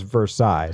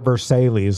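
First: The word is said with the standard pronunciation. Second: The word is said with a regional accented pronunciation. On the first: The speaker calls it right. "It's Versailles" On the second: The speaker calls it wrong. "it's not Versailles like you're pronouncing it"

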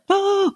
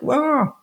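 First: It is said in an alarmed, urgent way. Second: It is said in a half-hearted, casual way.

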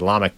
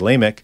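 First: The name is pronounced in a Hebrew style. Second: The name is pronounced in a common English style. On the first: "I'm used to my Hebrew in my head, so I say Lamech" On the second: "I think a lot of people say Lamech"

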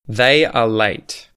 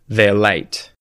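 First: The words are said in full, uncontracted. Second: The words are squeezed into one contracted syllable.

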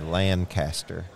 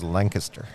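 First: The vowels are drawn out long. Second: The vowels are short and clipped. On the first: "we still use long vowels and so we say Lancaster" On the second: "I notice everyone up here says Lancaster"

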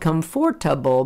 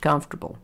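First: Every syllable, including the middle one, is pronounced. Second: The unstressed middle syllable is dropped. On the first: "it's spelled comfortable" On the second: "but it's pronounced comfortable"

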